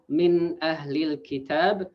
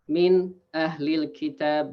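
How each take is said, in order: First: The phrase flows on without any break. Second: There is a short break inside the phrase. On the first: The speaker calls it right. "instead of uh, reading" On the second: The speaker calls it wrong. "That's that's a pause"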